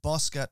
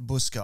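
First: "Bosca" with an open O in the first syllable; correct surname pronunciation. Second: "Buska" with a short OO in the first syllable; mispronounced surname. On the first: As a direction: say "Bosca" as BOSS-kuh, the corrected way. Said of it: "the correct pronunciation of your surname". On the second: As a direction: say "Buska" as BUUS-kuh, the mistaken way. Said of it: "I messed it up". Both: Shown as a demonstration.

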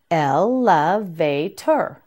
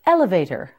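First: "Elevator" slowly as el, le, vay, ter; syllable by syllable. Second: Said in the usual way. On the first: Shown as a demonstration. Teacher modelling "Elevator" for learners, syllable by syllable. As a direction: draw out each of the four syllables in "Elevator".

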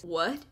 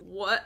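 First: A touch lower, lightly voiced Aaron; hint of a brooding love interest. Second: Said in the usual way. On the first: Reading the AI Aaron's reply in a lightly lowered Aaron voice. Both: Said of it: "I have to do an Aaron voice".

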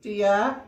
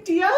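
First: Yawned. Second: A high, loud rising dear; cheerful Missus Bear. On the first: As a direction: sigh dear through a yawn. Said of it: "yawned Mister Bear". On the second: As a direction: chirp it brightly at the tired husband. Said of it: "she said". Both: Acted.

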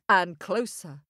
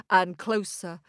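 Both takes have the same delivery.

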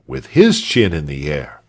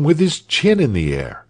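First: "his" stressed, in a lower voice. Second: Said in the usual way. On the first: A narrator's reading. Walter copies his father, stress on "his". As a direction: lean on "his" to mark the copycat.

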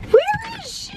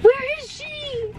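First: High squeaky voice for the puppy; high-pitched pretend puppy whine; dog's voice. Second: High, slow and softer whimper; slow, quiet, high puppy whimper. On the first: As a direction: ask it as the whining puppy. Dog asking for owner. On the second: Pretend. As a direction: whimper it as the sad little dog. Dog asking again, softer.

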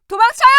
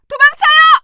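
First: Alarmed call with a rising end; urgent call. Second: High, loud scream to flee; panicked shout. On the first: Citizen warning the doctor, urgent rising call. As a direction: urge them to run. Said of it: "second take shouted". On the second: Citizen screaming at the doctor to run, panicked shout. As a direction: yell at everyone to run. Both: Acted.

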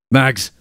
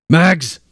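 First: Calling out. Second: Higher, louder second call; desperate call. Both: A narrator's reading. Calling into the portal.

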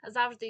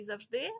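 First: «Завжди» said loudly as ЗАВ-жди; stress on first syllable. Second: «завжди» said loudly as зав-ЖДИ; stress on second syllable. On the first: (наголос на перший склад: «зАвжди») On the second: (наголос на другий склад: «завждИ») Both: Shown as a demonstration. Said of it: "подвійний наголос".

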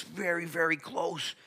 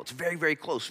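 First: "very, very close" stretched slowly and pitched higher; drawn-out emphasis. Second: Said in the usual way. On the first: Shown as a demonstration. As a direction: lean into each "very" slowly, higher up.

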